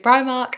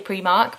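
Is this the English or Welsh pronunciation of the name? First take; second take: English; Welsh. First: It is said the English way. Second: It is said the Welsh way.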